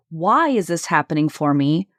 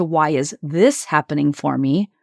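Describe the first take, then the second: First: "Why" punched with a pitch peak; stress on WHY. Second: "this" punched with a pitch peak; stress on THIS. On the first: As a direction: lean hard on the first word, "Why". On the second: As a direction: lean hard on the word "this". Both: Shown as a demonstration. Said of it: "emphasis on each word in the sentence shifts".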